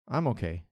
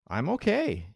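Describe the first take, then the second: First: The voice sounds flat and unhappy. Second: The voice sounds positive and content. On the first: The speaker is only so-so, leaning toward bad. "o contrário" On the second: The speaker is doing well. "que eu estou falando que eu estou bem"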